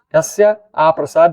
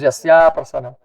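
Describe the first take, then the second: First: The joining A vowel is held long. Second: The joining A vowel is cut short. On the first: Without the guru's mercy. The speaker calls it right. "It's a long A" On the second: By the guru's mercy. The speaker calls it wrong. "If you make a short A"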